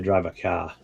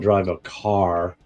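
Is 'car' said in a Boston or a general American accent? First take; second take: Boston; general American. First: Car is said in a Boston accent. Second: Car is said in a general American accent. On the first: "I've got that East Coast kind of Boston" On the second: "I don't drive a car"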